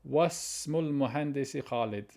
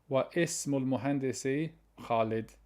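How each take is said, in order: First: Wa runs straight into smul with no vowel. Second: A separate i sound is voiced after wa. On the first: The speaker calls it right. "That's the correct way" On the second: The speaker calls it wrong. "It would be wrong if I say"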